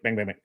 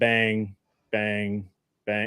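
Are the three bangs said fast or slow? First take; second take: fast; slow. First: The three bangs come quickly together. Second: The three bangs are spaced slowly apart. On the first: Firing at an increased pace. "I would just start increasing the speed" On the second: Firing at the earlier, slower pace. "instead of"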